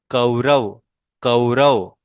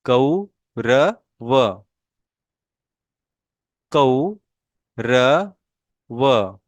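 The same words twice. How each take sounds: First: Said in the usual way. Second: कौरव drawn out very slowly, औ held long, falling at the end; slow model pronunciation. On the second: Shown as a demonstration. Teacher models कौरव slowly for students to copy. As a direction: sound out कौरव syllable by syllable. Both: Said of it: "मेरे pronunciation के ऊपर आपने ध्यान देना है".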